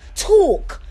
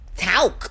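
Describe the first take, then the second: First: It is said in a British accent. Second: It is said in a Southern US accent.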